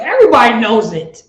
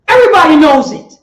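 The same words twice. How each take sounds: First: Said in the usual way. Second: Preaching louder. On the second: Acted.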